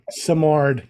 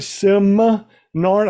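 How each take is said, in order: First: The second syllable has no n sound. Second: The second syllable starts with an n sound. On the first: The speaker calls it right. "Yeah, there you go" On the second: The speaker calls it wrong. "I've been saying it wrong for the last three seasons"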